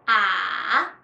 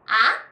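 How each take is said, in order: First: The pitch dips low, then rises. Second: The pitch starts medium and rises. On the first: "third tone is start slow, deep to the bottom, then rise again" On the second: "second tone is rising tone"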